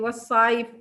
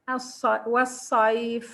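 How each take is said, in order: First: The final f is held without air. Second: The final f is pushed out with air. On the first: The speaker calls it wrong. "If I don't uh, uh, push air with the fa" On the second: The speaker calls it right. "you see how I pronounce the fa?"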